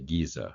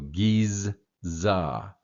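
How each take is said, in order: First: The z is said once, without doubling. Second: The z is doubled across the two syllables. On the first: "we kind of gloss over that and say Giza" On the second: "you would actually have two Z's"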